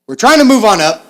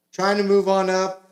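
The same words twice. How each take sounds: First: Loud hammed-up cheer. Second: Said in the usual way. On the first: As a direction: belt it out, much louder and higher. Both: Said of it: "got a little too into it".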